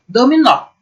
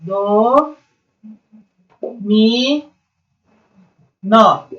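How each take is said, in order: First: Said in the usual way. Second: "Do, mi, nó" split by long pauses; separated syllables. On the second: Shown as a demonstration. Teacher showing how to separate into syllables, "Do, mi, nó" piece by piece. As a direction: stretch "Do" and "mi", then land on "nó". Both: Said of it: "você vai separar em sílaba".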